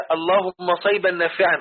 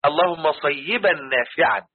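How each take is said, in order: First: صيبا said quickly as "sayban", without the doubled ya; mispronounced صيبا. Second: صيبا slowly as "say-yi-ban", with doubled ya; corrected pronunciation. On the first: Retold or imitated. Teacher quoting how some brothers say the prayer, mispronounced. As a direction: run صيبا together as two syllables, "say-ban". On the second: Shown as a demonstration. Teacher correcting the brothers' prayer, slow careful pronunciation. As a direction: stretch صيبا into three clear syllables, "say-yi-ban". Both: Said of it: "غلط".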